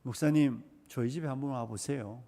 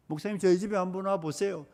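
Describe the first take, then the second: First: Soft, grumbling plea of a churchgoer; quiet imitation of a congregant; hushed mock complaint. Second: Said in the usual way. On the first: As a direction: mutter it like a fed-up spouse. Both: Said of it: "나는 언제나 이렇게 말합니다".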